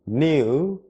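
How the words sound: It is said with a British pronunciation. "이것은 영국식 발음이에요"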